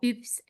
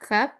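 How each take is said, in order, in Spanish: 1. Se dice a la manera francesa, sin h. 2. Se dice a la manera inglesa, con h. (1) "Sería la pronunciación en el francés" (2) "si lo pronunciamos desde el inglés"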